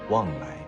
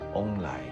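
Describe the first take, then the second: First: The first syllable is said as wang. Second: The first syllable is said as ong. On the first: "他们喜欢把菠萝叫做旺来" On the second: "他们的发音是翁来"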